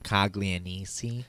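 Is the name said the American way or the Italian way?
American. The name is said with American pronunciation.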